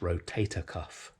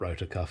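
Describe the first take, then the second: First: The first word has three syllables, ro-ta-tor. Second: The first word has two syllables, ro-tor. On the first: The speaker calls it right. "It's rotator cuff" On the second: The speaker calls it wrong. "It's not rotor cuff"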